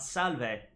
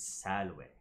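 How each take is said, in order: First: It is said with a V sound, ecclesiastical style. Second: It is said with a W sound, classical style.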